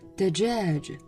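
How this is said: The word has soft j sounds. "我们说鸡是dajaj"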